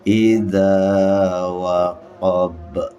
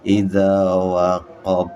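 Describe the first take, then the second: First: The final b ends with an echoing bounce. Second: The final b stops flat with no echo. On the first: The speaker calls it right. "harus memantul" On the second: The speaker calls it wrong. "enggak boleh dibaca"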